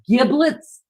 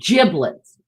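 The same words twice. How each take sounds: First: It begins with a hard G sound. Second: It begins with a soft J sound. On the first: "with a G" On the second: "or a J"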